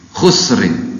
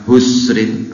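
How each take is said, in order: First: It begins with a harsh, rasping throat sound. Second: It begins with a soft breathy h sound. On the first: The speaker calls it right. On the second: The speaker calls it wrong.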